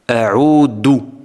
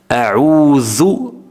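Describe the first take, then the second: First: The middle consonant is a d sound. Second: The middle consonant is a dh sound. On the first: The speaker calls it wrong. "confondue avec la lettre dal" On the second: The speaker calls it right. "La bonne prononciation"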